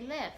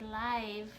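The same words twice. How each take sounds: First: The vowel is a short i sound. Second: The vowel is a long i sound. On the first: The speaker calls it right. "We say live, like it's L I V" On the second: The speaker calls it wrong. "we don't say live"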